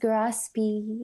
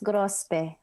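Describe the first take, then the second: First: It is said the American way, ending in 'ee'. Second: It is said the Philippine way, ending in 'eh'.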